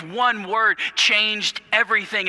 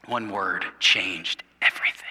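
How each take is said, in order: First: Higher and stronger, leaning on "One"; "One word changed everything" lifted high, "One" stressed; emphatic. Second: Low whisper. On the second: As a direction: let it sink in as a whisper. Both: Shown as a demonstration.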